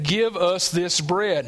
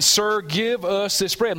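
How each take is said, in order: First: "Give us this bread" said slowly with the weight on Give; firm, slow "Give us this bread" with Give stressed; emphatic demand. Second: Said in the usual way. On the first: Shown as a demonstration. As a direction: press down on "Give" and slow the whole line. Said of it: "making a statement, an emphatic". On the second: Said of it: "an emphatic".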